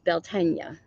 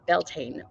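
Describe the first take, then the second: First: It is pronounced the Irish Gaelic way. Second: It is pronounced the American way. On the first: The speaker calls it right. "the true pronunciation" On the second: The speaker calls it wrong. "as Americans call it"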